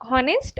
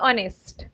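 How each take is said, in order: First: The word begins with an h sound. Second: The word begins with a vowel sound. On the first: The speaker calls it wrong. "Is it हॉनेस्ट और ऑनेस्ट?" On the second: The speaker calls it right. "एच is silent हेयर।"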